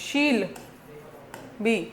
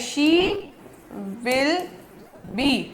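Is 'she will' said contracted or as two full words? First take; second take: contracted; full. First: Said contracted into one syllable, she'll be. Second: Said as separate full words, she will be. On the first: "ये बन गया शील be" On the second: "शी विल be, ये बन गया शील be"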